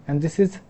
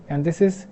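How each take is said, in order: Both takes have the same delivery.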